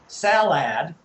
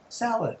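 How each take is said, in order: First: The second syllable has a full vowel. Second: The second syllable has a brief uh vowel. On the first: The speaker calls it wrong. "We don't say salad" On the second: The speaker calls it right. "a brief uh sound there. That's a schwa sound"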